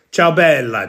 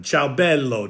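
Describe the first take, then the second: First: "ciao bella" in Italian, CHOW then BELL-ah ending on a clear ah; casual Italian "ciao bella", the greeting to a woman. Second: "ciao bello" in Italian, CHOW then BELL-oh ending on a rounded oh; casual Italian "ciao bello", the greeting to a man. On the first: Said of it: "ciao beautiful woman". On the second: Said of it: "ciao beautiful man". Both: Shown as a demonstration. Host explaining Italian to the chat, casual Italian pronunciation.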